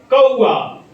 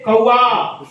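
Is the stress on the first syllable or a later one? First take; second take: first; later. First: The stress is on the first syllable. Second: The stress is on a later syllable. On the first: The word means crow. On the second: The word means be isolated.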